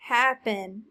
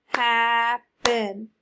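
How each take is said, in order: First: Said in the usual way. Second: Happen in two loud, drawn-out beats, hap, pen; clapped syllables. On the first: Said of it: "What's the word?". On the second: Shown as a demonstration. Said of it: "Clap it".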